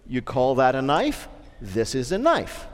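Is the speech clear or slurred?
clear. It is spoken clearly, without slurring.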